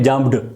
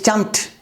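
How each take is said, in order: First: The word ends with a d sound. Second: The word ends with a t sound. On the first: The speaker calls it wrong. "You can't say jumped" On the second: The speaker calls it right. "It's jumped. Da sound becomes ta"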